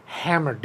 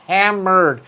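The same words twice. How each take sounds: First: Said in the usual way. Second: Hammered repeated with more weight; emphatic repeat. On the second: Real, not acted. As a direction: land the word Hammered harder the second time.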